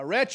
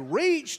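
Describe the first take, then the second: First: The vowel is short, as in 'wretch'. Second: The vowel is long, as in 'reach'. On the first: The speaker calls it right. "It's retch" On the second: The speaker calls it wrong. "You don't say reached"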